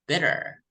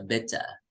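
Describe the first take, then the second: First: It is said in an American accent, T like D. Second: It is said in a British accent, clear T. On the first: "American would read it as bitter" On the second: "British would read it as a bitter"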